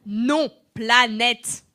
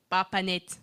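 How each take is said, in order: First: "planète" stretched out slowly, every syllable clear; slow careful planète. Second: Said in the usual way. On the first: Shown as a demonstration. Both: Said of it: "tu n'es pas nette".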